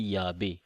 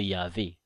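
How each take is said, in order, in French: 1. La consonne du milieu est un son b. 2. La consonne du milieu est un son v. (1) "comme on dit Yahvé ... les vrais hébreux ils disaient B" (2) "et non Yahvé, parce que Yahvé c'est un faux"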